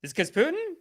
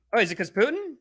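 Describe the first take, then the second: First: Much higher mock innocence; exaggerated mock-innocent rise on Putin; sarcastic question. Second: Mock innocent, higher voice; playfully sarcastic, is it 'cause Putin; sarcastic question. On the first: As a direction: ask it in a squeaky fake-naive voice. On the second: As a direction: feign naive wonder.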